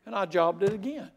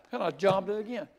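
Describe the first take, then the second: No difference in how they are said.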